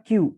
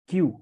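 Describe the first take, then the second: Both takes have the same delivery.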